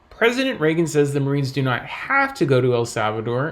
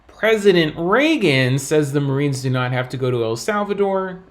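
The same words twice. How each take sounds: First: The word have carries the main stress. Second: The word not carries the main stress. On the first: They may go if they want to. "implying that perhaps they can go if they want to" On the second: Someone else claimed they must go. "implying that another person may have said the Marines do have to go"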